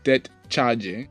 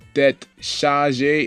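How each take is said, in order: First: Chargée begins with a ch sound. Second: Chargée begins with an sh sound. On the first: The speaker calls it wrong. "and not tête chargée" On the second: The speaker calls it right. "this is pronounced tête chargée"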